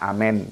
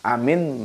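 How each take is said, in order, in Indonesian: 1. Vokal terakhir adalah bunyi eh yang tengah. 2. Vokal terakhir adalah bunyi ee yang tinggi. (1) "mereka amen" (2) "dialeknya kita a, amin"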